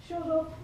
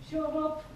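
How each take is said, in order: The two takes are said the same way.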